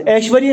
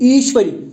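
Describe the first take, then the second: First: ایشوری said as eshwari, like Aishwarya; ایشوری with an open e sound at the start; ایشوری said the wrong way, eshwari; wrong pronunciation. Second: ایشوری said as ishwari, short i at the start; ایشوری with a clear i sound, ishwari; ایشوری said the right way, ishwari; correct pronunciation. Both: Shown as a demonstration. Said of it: "ایشوری نہیں".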